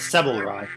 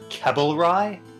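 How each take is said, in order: First: The name begins with an S sound. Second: The name begins with a K sound. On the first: This is the name's form in the translated version. "in the English version we just heard the doctor pronounce it as" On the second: This is the name's form in the original version. "in the Japanese version it was pronounced"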